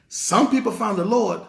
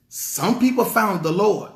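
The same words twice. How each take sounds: The two takes are said the same way.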